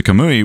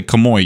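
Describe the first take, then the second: First: "kamui" ending in "oo-ee"; "kamui" with a clear "u" before the final "i"; correct kamui pronunciation. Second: "kamui" said as "kamoi", ending in "oy"; "kamui" mispronounced to rhyme with "boy" at the end; mistaken kamoi pronunciation. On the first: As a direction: say "kamui" as ka-moo-ee. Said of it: "which refers to Kakashi's ability". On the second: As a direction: turn the "ui" of "kamui" into "oy". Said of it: "you're saying sliding door". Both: Shown as a demonstration.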